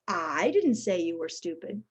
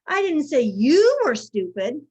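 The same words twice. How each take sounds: First: The stress falls on the word I. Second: The stress falls on the word you. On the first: Someone else said it. "suggests somebody else did" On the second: It was said about someone else. "I said so-and-so was stupid"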